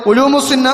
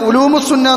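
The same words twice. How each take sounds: Both takes have the same delivery.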